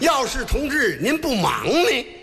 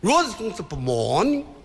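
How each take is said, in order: First: It is said very slowly and clearly. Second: It is said more slowly than before.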